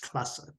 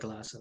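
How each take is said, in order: First: The first sound is a clear, hard K. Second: The first sound is softened toward a G. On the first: The speaker calls it right. "but it's Klasse" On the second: The speaker calls it wrong. "it almost becomes Neue Klasse"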